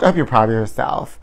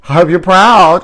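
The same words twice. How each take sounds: First: Soft aside. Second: Loud proud. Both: Shown as a demonstration.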